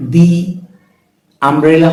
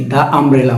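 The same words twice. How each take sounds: First: দি umbrella with দি as a separate "dee"; "thee" option. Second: দা umbrella with দা as open "daa"; "thuh" option. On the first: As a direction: say দি, pause, then umbrella. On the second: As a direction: say দা before umbrella with no ee. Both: Shown as a demonstration. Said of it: "আ উচ্চারণ হচ্ছে".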